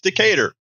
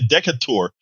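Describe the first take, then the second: First: It is said the way local people say it. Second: It is given a guessed English pronunciation. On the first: The speaker calls it right. "So okay, it's Decatur" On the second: The speaker calls it wrong. "I know it's English, so I'll say Decatur"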